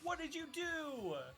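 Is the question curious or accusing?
accusing. It is asked in an accusing tone.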